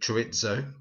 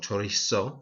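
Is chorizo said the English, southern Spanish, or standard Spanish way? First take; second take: English; southern Spanish. First: It is said the way English people say it. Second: It is said with a southern Spanish pronunciation.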